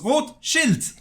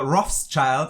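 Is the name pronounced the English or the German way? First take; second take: German; English. First: It is pronounced with a German-style pronunciation. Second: It is pronounced with an English-style pronunciation. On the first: It means red shield. The speaker calls it right. "no, it's Rothschild. It's Red Shield" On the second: Other people say it this way. The speaker calls it wrong. "Every time I hear somebody say uh"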